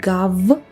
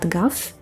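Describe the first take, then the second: First: The word ends in a voiced v sound. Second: The word ends in a voiceless f sound. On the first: The speaker calls it wrong. "not gav" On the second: The speaker calls it right. "but gaf? It's because of the final devoicing"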